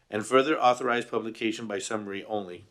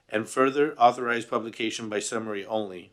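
No difference in how they are said.

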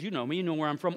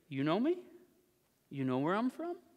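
First: It is said as a statement, falling at the end. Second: It is said as a question, rising at the end. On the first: The listeners really do know who he is. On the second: The listeners' claim to know him is being challenged.

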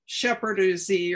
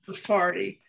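First: The word starts with 'sh' and ends in 'deez'. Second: The word starts with 's' and ends in 'dee'. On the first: The speaker calls it wrong. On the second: The speaker calls it right.

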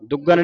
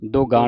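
First: The first vowel is a short 'u' sound. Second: The first vowel is a long 'o' sound. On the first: The speaker calls it wrong. "ਦੁੱਗਣ ਨਹੀਂ ਪੜਾਉਂਦੇ" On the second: The speaker calls it right. "ਦੱਦਾ ਸੰਬੰਧਕ ਲਾ ਕੇ ਉਚਾਰਨ ਹੁੰਦਾ ਹੈ"

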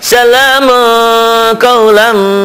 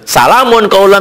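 First: The n sound is nasalized and hidden before q. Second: The n sound is pronounced clearly before q. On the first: The speaker calls it right. "itu tanwin ketemu qaf ikhfa" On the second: The speaker calls it wrong. "Itu kalau ceramah boleh"

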